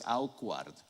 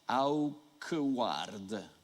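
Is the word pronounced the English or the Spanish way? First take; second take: English; Spanish. First: It is pronounced the way English speakers do. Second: It is pronounced the way a Spanish speaker would. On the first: "Esta palabra es awkward" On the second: "¿Cómo lo pronunciaríamos en español?"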